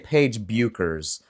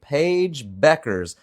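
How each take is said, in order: First: The surname's first vowel sounds like oo. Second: The surname's first vowel sounds like eh. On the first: The speaker calls it wrong. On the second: The speaker calls it right.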